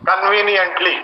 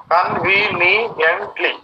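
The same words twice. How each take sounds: First: Said in the usual way. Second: कन्वीनियंटली slowly split into five sounds; कन्वीनियंटली in five slow, separate beats; syllable by syllable. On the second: Shown as a demonstration. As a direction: draw out each syllable of कन्वीनियंटली. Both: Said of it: "five sounds".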